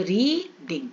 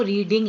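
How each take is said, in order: First: "री-डिंग" in two separate beats; split into syllables. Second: Said in the usual way. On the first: Shown as a demonstration. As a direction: stretch "री", small gap, then "ding". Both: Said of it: "इसमें दो syllable है".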